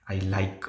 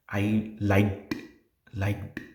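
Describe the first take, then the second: First: "like" ending on k, no t; E D dropped. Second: "liked" ending in a sharp released t; E D stressed. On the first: Teacher showing what interpreter would hear, ending missing. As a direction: say "I like" with no past ending. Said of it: "it's not like". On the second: Teacher showing it isn't "like", ending stressed. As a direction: say "liked" with a distinct t after the k. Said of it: "stretching that word E D". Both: Shown as a demonstration.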